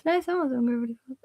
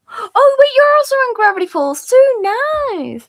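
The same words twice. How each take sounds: First: Said in the usual way. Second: High, loud excited squeal. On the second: Real, not acted. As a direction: burst out thrilled. Excited realization to chat.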